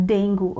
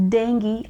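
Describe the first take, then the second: First: Dengue said as "DENG-goo", ending in oo; wrong dengue. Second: Dengue said as "DENG-ghee"; correct dengue. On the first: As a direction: mispronounce dengue with a final "goo". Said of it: "and not dengue". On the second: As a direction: end dengue on an ee sound. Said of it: "we pronounce it as". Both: Shown as a demonstration.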